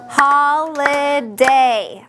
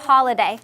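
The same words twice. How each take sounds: First: "Holiday" drawn out very slowly, syllable by syllable; clapped-out syllables. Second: Said in the usual way. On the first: Shown as a demonstration. Teacher clapping out syllables for the class, slow and evenly split. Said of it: "clap holiday". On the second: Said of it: "Let's s-, clap holiday".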